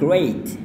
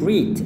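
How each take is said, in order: First: The vowel is not a long ee sound. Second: The vowel is a long ee sound. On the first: The speaker calls it right. "padahal yang tepatnya adalah great" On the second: The speaker calls it wrong. "orang salah melafalkannya bilang great"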